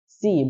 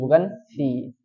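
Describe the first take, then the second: First: The consonant is a sharp hissing s. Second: The consonant is a soft lisped th-like s. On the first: The speaker calls it right. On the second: The speaker calls it wrong.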